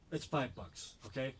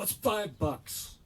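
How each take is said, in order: First: Said in the usual way. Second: Louder, higher, dragged out; irritated, slow. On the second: Retold or imitated. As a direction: spell it out to an idiot slowly. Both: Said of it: "I go".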